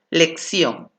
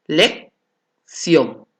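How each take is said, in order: First: Said in the usual way. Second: "Lección" split as lec, pause, ción; syllable by syllable. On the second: Shown as a demonstration. Teacher demonstrating the silabeo, in separated syllables. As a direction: break "Lección" in two, keeping ción together. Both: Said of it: "del silabeo".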